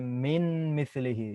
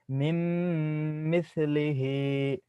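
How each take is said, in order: First: The n is pronounced separately before the m. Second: The n merges into a long nasal m. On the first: The speaker calls it wrong. "You cannot say min mislihi" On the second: The speaker calls it right. "I don't pronounce the sound of noon sakin right here"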